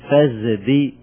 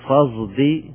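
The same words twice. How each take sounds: First: The consonant before d is a full z. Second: The consonant before d blends emphatic s and z. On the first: "عندنا إبدال إلى زاي فنقول" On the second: "وعندنا مضارعة والمضارعة في الصاد فقط نقول"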